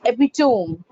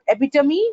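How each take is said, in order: First: "epitome" as EPI-tome; "epitome" in three syllables; demonstrated pronunciation. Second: "epitome" ending in MEE; "epitome" in four syllables; rejected pronunciation. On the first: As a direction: end "epitome" like home, falling. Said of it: "It's epitome". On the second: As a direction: say "epitome" as eh-pi-tuh-MEE, rising. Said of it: "not epitome". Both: Shown as a demonstration.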